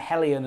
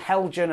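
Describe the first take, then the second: First: The middle consonant is a y sound. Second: The middle consonant is a hard g. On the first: The speaker calls it right. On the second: The speaker calls it wrong.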